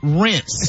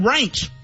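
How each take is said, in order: First: The word ends with an s sound. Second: The word ends with a ch sound. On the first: The speaker calls it right. "It is rinse" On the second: The speaker calls it wrong. "It is not ranch"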